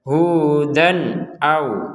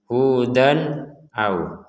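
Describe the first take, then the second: First: The words run together with no pause. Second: There is a short pause between the words. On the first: The speaker calls it right. "Jadi langsung saja" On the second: The speaker calls it wrong. "hudan jeda sebentar au. Nah, itu tidak boleh"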